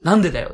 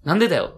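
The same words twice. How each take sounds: First: It is said with lively, varied intonation. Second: It is said flat, like a monotone read.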